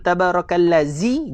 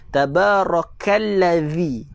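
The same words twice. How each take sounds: First: The consonant is a z with teeth together. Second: The consonant is a th with tongue out. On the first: The speaker calls it wrong. "gigi berjumpa dengan gigi, maka tuan-tuan dah baca dia dengan huruf zai" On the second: The speaker calls it right. "lidah kita kena keluar lebih daripada gigi"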